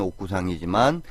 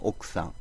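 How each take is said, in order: First: The ku syllable is said with a full vowel. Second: The ku syllable loses its vowel almost entirely. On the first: "쓸 때는 옥구상이지만" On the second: "발음할 때는 옥상"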